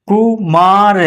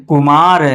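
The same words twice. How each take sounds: First: "कुमार" stretched into separate syllables. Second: Said in the usual way. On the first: Shown as a demonstration. Teacher spelling out an example, "कुमार" slow and split. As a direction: sound out "कुमार" piece by piece.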